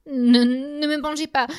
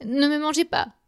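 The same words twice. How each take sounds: First: Supplication aiguë et apeurée; implorer, très haut, terrifié; suppliant. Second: Supplication aiguë répétée; suppliant. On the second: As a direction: implorer encore, voix haute. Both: A narrator's reading. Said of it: "supplie-t-il au géant". (supplique apeurée)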